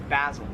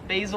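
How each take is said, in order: First: "basil" with a short a, BAZ-il; Australian pronunciation. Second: "basil" with a long a, BAY-zil; American pronunciation. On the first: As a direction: rhyme "basil" with dazzle. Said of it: "However, in Australia". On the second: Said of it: "Americans would pronounce this as". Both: Shown as a demonstration.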